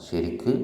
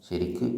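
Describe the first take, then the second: Both takes have the same delivery.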